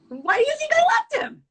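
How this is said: It is said in a high-pitched voice. "Then you can go high pitch with your voice also"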